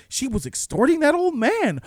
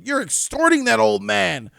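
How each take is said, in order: First: Lightly voiced shocked detective, a bit higher. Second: Accusing detective. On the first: Detective reading the document, mildly shocked, raised pitch. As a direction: mildly act out a stunned realization. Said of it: "And he's like". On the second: Retold or imitated. Detective confronting the woman, hammed-up accusation. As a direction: point the finger hard at her. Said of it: "He just came to the conclusion".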